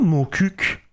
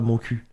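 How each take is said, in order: First: The second word ends with a hard k sound. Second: The second word ends on a vowel, no k. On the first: The speaker calls it right. "ça se prononce pas mon cul" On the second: The speaker calls it wrong. "ça se prononce pas mon cul"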